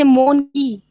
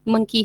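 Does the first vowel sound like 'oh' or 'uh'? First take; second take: oh; uh. First: The first vowel is a long 'oh' sound. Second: The first vowel is a short 'uh' sound. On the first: The speaker calls it wrong. "गलत प्रोनाउंसिएशन है" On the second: The speaker calls it right. "इसका सही प्रोनाउंसिएशन"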